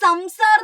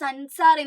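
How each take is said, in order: First: The consonant before the s sounds like m. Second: The consonant before the s sounds like n. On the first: The speaker calls it wrong. "ഈ സംസാർ എന്നാണ് വായിക്കുന്നത്, അല്ല" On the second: The speaker calls it right. "അല്ല സൻസാർ എന്നാണ് വായിക്കുന്നത്"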